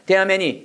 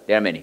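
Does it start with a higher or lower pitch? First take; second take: higher; lower. First: It starts at a higher, Korean-like pitch. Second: It starts at a dropped, lower English pitch.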